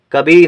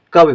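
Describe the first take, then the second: First: कभी ending on a long, drawn-out ee; long final ee. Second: कवि ending on a quick short i; short final i. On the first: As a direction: hold the final vowel in कभी. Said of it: "बड़ी का उच्चारण हो जाएगा". (कभी में ई को लंबा खींचकर) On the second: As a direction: keep the इ at the end of कवि brief. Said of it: "छोटी की मात्रा तो कवि पढ़ेंगे". (कवि के अंत में छोटी इ) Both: Shown as a demonstration.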